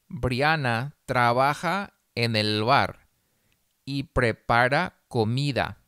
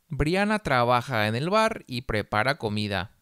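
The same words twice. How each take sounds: First: The sentence is read slowly. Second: The sentence is read at a faster pace. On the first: "Una vez despacio" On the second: "más rápido"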